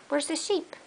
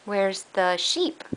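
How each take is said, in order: First: Higher, much softer, rising question; high soft coaxing. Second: Said in the usual way. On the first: Real, not acted. Parent gently coaxing toddler to find the sheep, high and soft.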